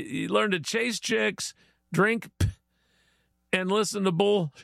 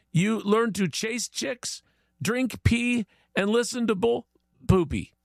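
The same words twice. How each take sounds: First: "p-" cut short, a gap after it and "bull" left hanging; leaving blanks. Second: Higher-pitched, deliberate list in mock Chinese accent. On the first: Shown as a demonstration. Host shows how to fill in the blank, breaking off "p-". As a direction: stop dead on "p-", then leave "bull" unfinished. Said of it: "That's how you do it". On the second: Chinese guy explains becoming true Australian, mock Chinese accent. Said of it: "Chinese guy says".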